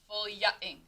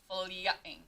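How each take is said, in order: The two takes are said the same way.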